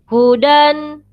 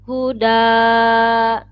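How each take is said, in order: First: The word ends with an n sound. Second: The word ends with a long vowel. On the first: The reader continues without stopping. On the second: The reader stops at this word.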